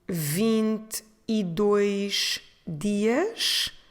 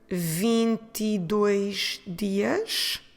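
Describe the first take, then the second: First: The phrase is said at a slower pace. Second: The phrase is said at a quicker pace.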